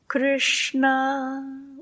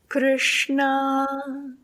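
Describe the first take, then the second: Both takes have the same delivery.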